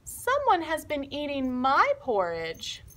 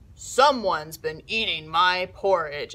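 First: It is said in a medium-sized voice. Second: It is said in a big, gruff voice. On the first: "in her medium-sized voice" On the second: "in a big, gruff voice"

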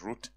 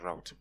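First: The word rhymes with boot. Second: The word rhymes with out. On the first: "Some people pronounce it as root" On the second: "but me, I'll pronounce it as route"

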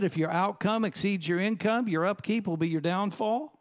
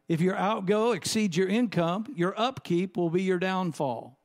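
First: It is said at a normal, quicker pace. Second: It is said at a slower, deliberate pace.

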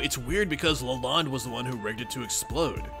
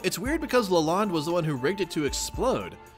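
First: It is said in Strider's character voice. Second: It is said in a different character's voice.

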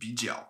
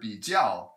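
First: The second syllable has a low third tone. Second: The second syllable has a falling fourth tone. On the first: This is how most people commonly say it. "it's often pronounced as two third tones together" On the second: This is the standard dictionary pronunciation. "Instead of third tone, fourth tone"

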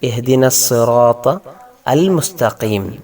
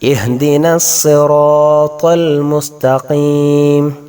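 First: The hamza before 'al' is pronounced separately. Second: The words run together with no hamza before 'al'. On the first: The words are read separately. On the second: The phrase is read connected.

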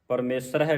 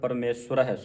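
First: There is no w sound after sh. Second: A w sound follows the sh. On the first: The speaker calls it wrong. "ਨਹੀਂ ਪੜ੍ਹਨਾ" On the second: The speaker calls it right. "ਸੱਸੇ ਔਂਕੜ ਲੱਗਾ, ਇਹ ਉਚਾਰਨ ਹੋਵੇਗਾ"

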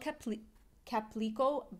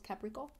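First: The name is said with an L sound. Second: The name is said without an L sound. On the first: "It's called Caprico" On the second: "in Japan, they don't pronounce the L"

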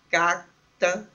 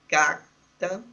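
First: The r is said as a quick flap. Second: The r is said as a quick flap.

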